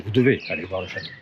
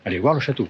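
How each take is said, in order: First: "devez" pressed harder, voice dropped lower; stress on devez. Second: Said in the usual way. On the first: Shown as a demonstration. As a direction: lean on "devez" to make it a must.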